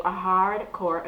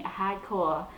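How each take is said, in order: First: Said in the usual way. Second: HARDCORE in a Boston accent, R dropped as "hahdcoah". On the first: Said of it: "excuse me". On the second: Shown as a demonstration. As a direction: say HARDCORE like a Bostonian, without the R sounds. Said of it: "Boston accent".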